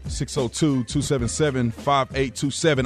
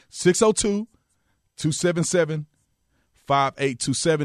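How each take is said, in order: First: The number is said at normal speed. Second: The number is said very slowly.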